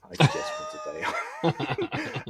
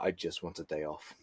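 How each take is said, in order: First: High, slow, drawn-out shouted plea; pleading wail. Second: Said in the usual way. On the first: Retold or imitated. Answering family's Christmas question with a high drawn-out wail. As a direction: wail it like a desperate wish. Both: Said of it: "I'm like".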